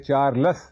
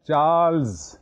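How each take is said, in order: First: A vowel is inserted between the l and s. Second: The l and s join with no vowel. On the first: The speaker calls it wrong. "ये चार्लस नहीं है" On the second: The speaker calls it right.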